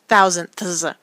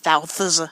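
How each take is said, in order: First: The word is said with all its sounds. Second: The word is shortened, dropping middle sounds.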